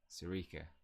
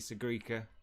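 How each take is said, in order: First: The name is said without a G sound. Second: The name is said with a G sound. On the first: "or is it a silent G?" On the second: "bring back the G"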